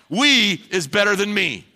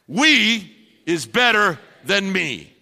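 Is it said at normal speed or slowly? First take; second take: normal; slowly. First: It is said at a normal pace. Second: It is said more slowly.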